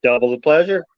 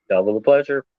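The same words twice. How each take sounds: First: Said in the usual way. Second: Low, lightly voiced twin brother; deep twin voice. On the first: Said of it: "twin brother joke". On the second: Shown as a demonstration. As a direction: drop the pitch for the twin. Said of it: "That's my twin brother".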